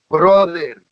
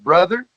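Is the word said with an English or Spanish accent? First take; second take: Spanish; English. First: It is said with a Spanish accent. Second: It is said with a plain English accent. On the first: "think of saying it with a Spanish accent" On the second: "like brother"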